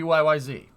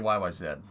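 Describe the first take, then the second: First: The letters are said the American way. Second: The letters are said the Canadian way. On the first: "If Americans made that same song, it'd be Y Y Z" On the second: "it's Canadian, so you got to say Y Y Z"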